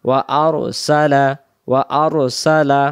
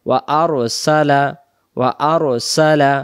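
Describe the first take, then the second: The two takes are said the same way.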